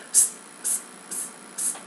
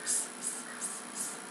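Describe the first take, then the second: First: Crisp, bouncing unvoiced hisses like rubber balls; bouncy s. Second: Limp, lazy unvoiced hisses; sloppy lazy s. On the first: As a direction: bounce each s like a rubber ball. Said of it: "you want them to be bouncing rubber little balls". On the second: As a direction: let each s sag sloppily. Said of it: "You don't want them to be like". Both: Shown as a demonstration.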